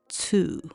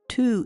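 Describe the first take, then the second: First: The syllable starts with a ts sound. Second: The syllable starts with a plain t sound. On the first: The speaker calls it right. "Tu is actually pronounced tsu, like this" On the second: The speaker calls it wrong. "There is no tu sound in Japanese"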